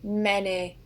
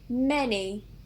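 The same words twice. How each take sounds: First: It is said in a northern, South Yorkshire accent. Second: It is said in a southern English accent.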